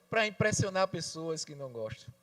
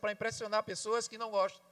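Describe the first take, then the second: First: It is spoken very slowly. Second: It is spoken at a normal speed.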